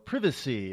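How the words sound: It is said with a British accent.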